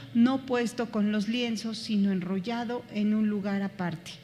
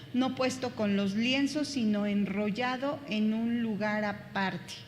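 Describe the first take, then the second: The two takes are said the same way.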